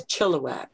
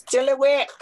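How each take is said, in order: First: Said in the usual way. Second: Chilliwack said high, short and emphatic in the original way; original pronunciation. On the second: Shown as a demonstration. Speaker showing how names in our homes sounded, Chilliwack pronounced emphatically. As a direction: say "Chilliwack" high with a short, stressed last syllable. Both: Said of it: "the way Europeans have changed all the names".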